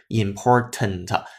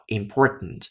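First: The t is released through the mouth. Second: The t is released through the nose. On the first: The speaker calls it wrong. "而不是important" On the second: The speaker calls it right. "它用了一个非常典型的鼻腔爆破，叫important"

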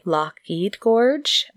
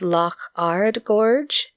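First: The middle word is said like 'aid'. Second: The middle word is said like 'ard'. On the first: This is how some other people say it. "some people seem to say" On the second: This is how the speaker would say it. "So I would have said"

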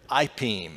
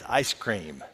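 First: It is said as a toddler's simplified ipeem. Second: It is said in full as ice cream. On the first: "she used to say it this way" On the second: "It's ice cream"

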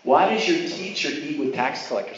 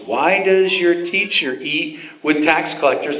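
First: It is said in a sarcastic, mocking tone. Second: It is read in a plain, neutral tone.

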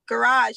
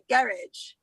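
First: It is said with an American pronunciation. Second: It is said with a British pronunciation. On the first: "you guys don't say garage" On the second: "you say garage"

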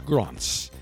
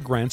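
First: The name is said with a British pronunciation. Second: The name is said without a British pronunciation. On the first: The speaker calls it right. "it's Grands. As they say in Britain" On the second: The speaker calls it wrong. "We don't say Grands"

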